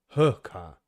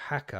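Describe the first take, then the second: First: The first vowel sounds like the vowel in hook. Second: The first vowel sounds like the vowel in hack. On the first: The speaker calls it right. "It's pronounced hookah" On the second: The speaker calls it wrong. "hacker, I think it's pronounced"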